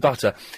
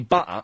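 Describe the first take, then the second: First: The middle T is clearly pronounced. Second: The middle T is dropped, replaced by a catch. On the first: This is how the callers do not say it. "don't say butter" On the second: This is how the callers actually say it. "they say butter"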